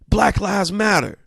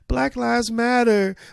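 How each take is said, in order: First: It is said firmly and assertively. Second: It is said in a pleading, complaining tone.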